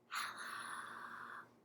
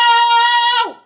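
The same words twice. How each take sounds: First: It is said very quietly. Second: It is said very loudly.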